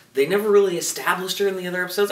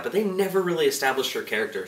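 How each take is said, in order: First: "really" punched, fast and loud; stress on really. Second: "they" lifted, the rest at an even pace; stress on they. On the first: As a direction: hit the word "really" hard. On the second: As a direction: lean on "they", not on "really". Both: Real, not acted.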